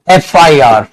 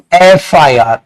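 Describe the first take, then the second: No difference in how they are said.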